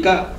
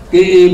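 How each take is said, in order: First: "ka" said short and cut off; short vowel. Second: "ka" held long; long vowel. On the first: Teacher combining K with A, short "ka". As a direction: say a brief "ka". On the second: Teacher combining K, A and ba, long "ka". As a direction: draw out the vowel of "ka". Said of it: "K, A, ba would be ka". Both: Shown as a demonstration.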